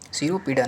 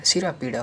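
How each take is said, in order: First: सिरोपीड़ा as siro-peeda; wrong form. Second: सिरा पीड़ा as sira-peeda; corrected form. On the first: Teacher shows the error, सिरोपीड़ा with o. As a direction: put o after r in सिरोपीड़ा. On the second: Teacher corrects students, सिरा पीड़ा without o. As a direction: open vowel before पीड़ा in सिरा पीड़ा. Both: Shown as a demonstration. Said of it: "नहीं होता है".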